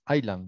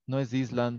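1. No se pronuncia un sonido S en el medio. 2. Se pronuncia un sonido S en el medio. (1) "es island, ¿no? La S no se pronuncia" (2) "no es island"

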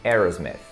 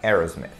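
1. É com pronúncia inglesa. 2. É com pronúncia inglesa.

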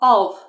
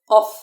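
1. Слово закінчується звуком між f та v. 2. Слово закінчується чітким звуком f. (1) "Прикусуємо нижню губу. І ніби у нас виходить такий звук між F та В" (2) "Ми не кажемо of. Ні, так це неправильно буде"

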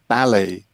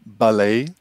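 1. É dito com pronúncia não americana. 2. É dito com pronúncia americana. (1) "para mim" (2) "como dizem os norte-americanos"

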